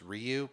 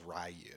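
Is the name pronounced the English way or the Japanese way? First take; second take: Japanese; English. First: The name is said with a Japanese-style pronunciation. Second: The name is said with an English-style pronunciation. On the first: This is how a Japanese speaker would say it. "if a Japanese person was saying it, it's Ryu" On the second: This is how most non-Japanese speakers say it. "everybody else is Ryu"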